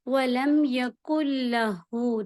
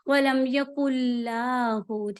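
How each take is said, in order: First: The vowel after 'l' in 'lahu' is short. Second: The vowel after 'l' in 'lahu' is drawn out long. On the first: The speaker calls it right. "ये जो लाम पे जबर है ना, ये लंबी ना हो" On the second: The speaker calls it wrong. "तो ऐसे नहीं पढ़ना, ये गलती हो जाएगी"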